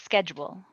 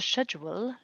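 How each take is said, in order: First: It is said with an American pronunciation. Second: It is said with a British pronunciation. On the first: "if I just went to England ... if I'd say" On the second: "Everyone would say"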